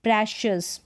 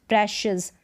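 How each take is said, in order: No difference in how they are said.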